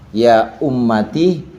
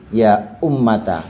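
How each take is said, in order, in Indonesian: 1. Huruf t diikuti vokal i. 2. Huruf t diikuti vokal a. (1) "Boleh dibaca kasroh" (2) "boleh dibaca fathah"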